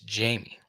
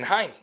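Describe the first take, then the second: First: The name is said with English pronunciation. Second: The name is said with Spanish pronunciation. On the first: The speaker calls it right. "it's not pronounced like the Jaime Spanish is spelled. It's Jamie" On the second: The speaker calls it wrong. "I started saying Jaime"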